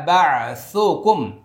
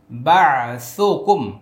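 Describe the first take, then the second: No difference in how they are said.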